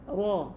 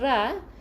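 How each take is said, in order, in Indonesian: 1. Vokalnya dibulatkan, bibir dimajukan ke depan. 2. Vokalnya 'a' terbuka, tidak dibulatkan. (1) "bibir bawah ni kena ke depan sikit" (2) "bukan ra, ra salah"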